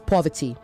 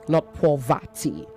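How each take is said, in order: First: The middle vowel is reduced and weak. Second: The middle vowel is a full 'a' sound. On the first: The speaker calls it right. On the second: The speaker calls it wrong.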